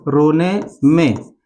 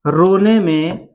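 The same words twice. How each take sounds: First: रोने में drawn out very slowly; रोने में, बहुत धीमा; even slower, lower रोने में. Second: रोने में with the vowels lengthened; रोने में, धीमा और खींचकर; slow, drawn-out रोने में. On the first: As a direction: let रोने में sag and drag. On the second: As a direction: stretch रोने में out like a wail. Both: Shown as a demonstration. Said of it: "तो मैं बता दूं".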